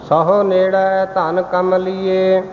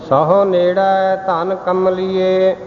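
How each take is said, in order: The two takes are said the same way.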